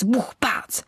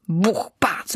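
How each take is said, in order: First: Whispered knock sound, pitched up; hushed knocking again, a little higher; whispered bang, rising. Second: Breathy whispered sound effect; hushed onomatopoeia for knocking; whispered bang. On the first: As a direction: echo the knocks in a whisper with a lift. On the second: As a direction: whisper the knocks like distant thuds. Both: A narrator's reading. Noises inside the oak.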